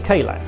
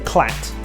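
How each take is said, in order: First: The k is said as a separate syllable. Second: The k blends straight into the word. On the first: The speaker calls it right. "You normally say K-Lat" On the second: The speaker calls it wrong. "you don't say Clat"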